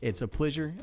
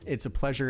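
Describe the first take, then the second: First: It is said in a mock French accent. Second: It is said in a plain American accent.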